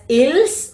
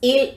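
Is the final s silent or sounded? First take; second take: sounded; silent. First: The final s sound is pronounced. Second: The final s sound is silent. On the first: The speaker calls it wrong. "Don't pronounce it as ills" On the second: The speaker calls it right. "It is ill only"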